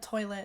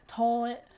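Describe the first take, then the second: First: It is said with a standard accent. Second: It is said with an Appalachian accent. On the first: "instead of toilet" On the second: "they'll be like toilet"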